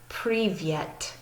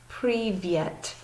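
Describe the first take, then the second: First: The second syllable has a 'y' glide, 'vyet'. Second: The second syllable has a 'y' glide, 'vyet'.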